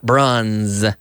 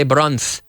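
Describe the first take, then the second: First: Bronze ending in a buzzing z; correct pronunciation. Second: Bronze ending in a th sound, bronth; wrong pronunciation. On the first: Teacher giving students the right way, bronze with a buzzing z. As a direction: finish bronze on a voiced z. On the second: Teacher warning students off the wrong way, bronze as bronth. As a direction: lisp the z of bronze. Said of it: "We don't say". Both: Shown as a demonstration.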